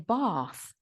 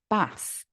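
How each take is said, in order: First: The vowel in bath is long. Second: The vowel in bath is short. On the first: This is how southern English speakers say it. "they use the long vowel ah. So they say bath" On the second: This is how northern English speakers say it. "I pronounce it bath"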